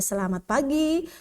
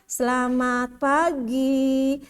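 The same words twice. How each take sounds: First: It is spoken at a normal pace. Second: It is drawn out too slowly. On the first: The speaker calls it right. "Jadi wajar saja" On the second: The speaker calls it wrong. "itu juga kelamaan juga"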